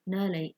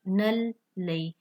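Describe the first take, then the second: First: The L sound is said once, without pressure. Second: The L sound is doubled and held with pressure. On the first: The speaker calls it wrong. "बहुत सारे बच्चे इस तरह पढ़ जाते हैं" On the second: The speaker calls it right. "लाम का साउंड दो दफ़ा हमारे पास आएगा"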